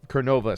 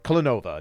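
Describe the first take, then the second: First: The name begins with the sounds 'ker'. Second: The name begins with the sounds 'klen'. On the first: The speaker calls it wrong. "Klenova, not Kernova" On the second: The speaker calls it right. "Klenova, not Kernova"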